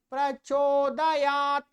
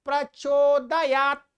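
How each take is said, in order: First: प्रचोदयात ending in a long 'taa'; mistaken added vowel. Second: Loud प्रचोदयात stopped dead on 't'; ending on T. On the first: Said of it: "ऐसे बोलते, नहीं". (प्रचोदयात के त में अ जोड़कर) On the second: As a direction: finish प्रचोदयात on the bare t, no vowel after it. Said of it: "त पर खत्म करना है". (प्रचोदयात, त पर खत्म) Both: Shown as a demonstration.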